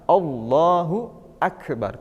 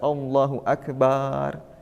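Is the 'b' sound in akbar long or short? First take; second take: short; long. First: The b sound in akbar is short. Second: The b sound in akbar is drawn out. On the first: It means God is the greatest. The speaker calls it right. "Maka Allahu akbar" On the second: The meaning shifts toward a drum. The speaker calls it wrong. "tidak Allahu akbar"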